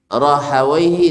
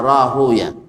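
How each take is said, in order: First: The name ends with the sounds 'awaihi'. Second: The name ends with the sounds 'uya'. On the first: This is the grammarians' reading. "Orang Nahu membacanya Rahawaihi" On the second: This is the hadith scholars' reading. "orang hadis biasanya"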